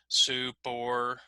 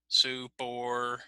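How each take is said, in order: First: The two words are joined and equally long. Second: The two words are joined and equally long.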